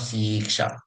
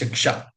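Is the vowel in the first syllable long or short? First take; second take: long; short. First: The first vowel is long. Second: The first vowel is short. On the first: This is the form the Veda uses. "lamba e, long e ka matra" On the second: This is the usual dictionary form. "dictionary usage will be always short e"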